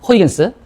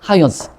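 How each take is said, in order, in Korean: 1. 이 이름은 'hoy' 소리로 시작해요. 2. 이 이름은 'hawi' 소리로 시작해요. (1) "제가 배울 때는 이 사람 이름을 호이겐스라고 배웠어" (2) "미국식 발음으로 이제 하위 헌스로 바뀌었는데"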